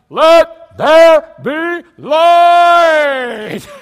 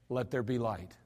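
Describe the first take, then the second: First: The phrase is shouted loudly. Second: The phrase is spoken quietly. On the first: Creation must be forced to listen. The speaker calls it wrong. "how loud does God have to yell" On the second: Creation obeys without force. The speaker calls it right. "He doesn't have to yell at all"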